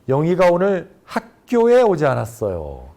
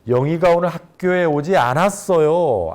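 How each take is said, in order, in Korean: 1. 강세는 '학교에'에 있어요. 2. 강세는 '않았어요'에 있어요. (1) "학교에를 강조하게 되면" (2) "않았어요를 강조하게 되면"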